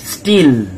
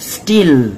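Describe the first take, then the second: The two takes are said the same way.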